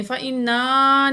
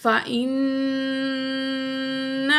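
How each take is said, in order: First: فَإِنَّا with the نون stretched into a long a; wrong drawn-out nun. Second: فَإِنَّ with the نّ held in the nose; nasal ghunna. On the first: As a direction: drag the نون of فَإِنَّا out, no ghunna. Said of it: "نہیں کرنا". (فَإِنَّا غلط، نون کو کھینچ کر) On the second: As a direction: hum the نّ of فَإِنَّ through the nose. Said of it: "ناک میں آواز لے جا کر ٹھہرانے کو غنہ". (فَإِنَّ میں نون کو ناک میں ٹھہرا کر غنہ) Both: Shown as a demonstration.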